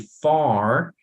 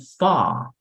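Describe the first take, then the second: First: The final r sound is clearly pronounced. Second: The r is dropped and the vowel lengthened. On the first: "So in American, you say far" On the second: "but in British, you say fa, como si fuera así una A más larga"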